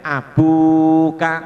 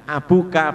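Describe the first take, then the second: First: "abuka" with a long, loud, held bu; bacaan panjang. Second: "abuka" dengan BU pendek, tanpa dipanjangkan; suku kata pendek. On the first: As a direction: hold the BU in "abuka" for two beats. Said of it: "dibaca panjang satu alif". ("abuka" dengan bu dipanjangkan dua harakat) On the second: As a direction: read "abuka" with a short, quick bu. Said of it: "disebutkan abuka pendek". ("abuka" dibaca pendek) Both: Shown as a demonstration.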